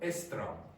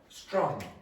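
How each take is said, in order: First: A vowel sound comes before the s sound. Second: The word starts directly with the s sound. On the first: The speaker calls it wrong. "it's not correct, but it's understandable" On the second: The speaker calls it right. "It is also common to have S T R"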